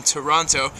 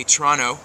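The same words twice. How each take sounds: First: Said in the usual way. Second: Toronto said as "Tronno", second t dropped; local pronunciation. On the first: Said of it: "or as the locals like to say". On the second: Shown as a demonstration. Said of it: "as the locals like to say".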